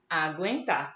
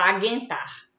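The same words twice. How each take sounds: First: The u after g is pronounced. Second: The u after g is silent. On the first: The speaker calls it right. "a gente diz aguentar" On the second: The speaker calls it wrong. "A gente não fala aguentar"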